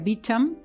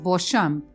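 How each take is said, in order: First: The name is said with an American pronunciation. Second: The name is said with a French pronunciation. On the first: This is how the man himself says it. "se pronuncia Beauchamp" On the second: This is the original form of the name. "en realidad el nombre francés es Beauchamp"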